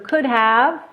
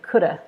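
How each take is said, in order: First: Both words are said fully with H and V. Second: Both H and V are dropped, ending in uh.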